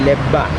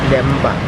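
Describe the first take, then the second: First: The doubled consonant is a plain b. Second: The doubled consonant has a nasal m before b. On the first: This is how it is said in the West. "in the West they may be pronouncing it as" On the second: This is how the local community says it. "we are pronouncing it as Lemba"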